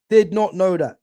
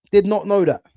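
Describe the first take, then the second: No difference in how they are said.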